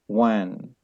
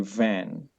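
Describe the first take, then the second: First: The word begins with a w sound. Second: The word begins with a v sound. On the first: The speaker calls it wrong. "some people they use the sound of wa" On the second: The speaker calls it right. "But in English, people they say van"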